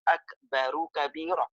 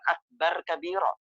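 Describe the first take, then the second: First: Akbar ends with an added 'u' vowel. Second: Akbar ends on the consonant 'r'. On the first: The speaker calls it right. "Jadi ra-nya itu dhammah, bukan sukun" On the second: The speaker calls it wrong. "Nggak boleh mengatakan akbar kabira"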